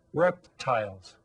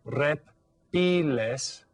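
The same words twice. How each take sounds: First: Said in the usual way. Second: "Reptiles" in Spanish, slow rep-TEE-les; Spanish pronunciation. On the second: Shown as a demonstration. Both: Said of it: "it's pronounced a little bit differently".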